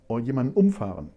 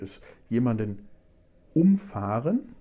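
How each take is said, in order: First: The stress is on the first syllable of umfahren. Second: The stress is on the second syllable of umfahren.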